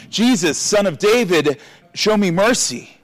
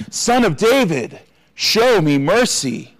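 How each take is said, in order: First: A raised, higher cry for mercy; narrated shout. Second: Much higher, slow pleading cry; shouting even louder. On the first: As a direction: call out to Jesus, pitch up. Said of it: "he began to shout". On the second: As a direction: stretch it out, begging louder. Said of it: "he shouted even louder". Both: A narrator's reading.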